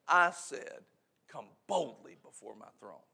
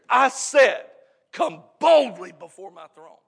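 First: It is said in a normal, softer voice. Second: It is said louder, stronger and booming.

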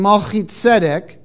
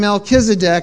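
First: The name has a Hebrew pronunciation. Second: The name has an Anglicized, Southern English pronunciation. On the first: The speaker calls it right. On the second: The speaker calls it wrong.

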